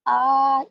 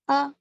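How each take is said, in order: First: The vowel is drawn out long. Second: The vowel is said quickly and short. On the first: The speaker calls it wrong. "इस तरह का पढ़ना गलत होगा" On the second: The speaker calls it right. "गौर से सुनिए कैसा पढ़ती हूँ"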